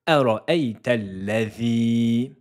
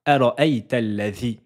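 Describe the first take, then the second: First: The final i vowel is held long. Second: The final i vowel is short. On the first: The speaker calls it right. "Voyelle longue de deux temps sur le i" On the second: The speaker calls it wrong. "on ne dira pas"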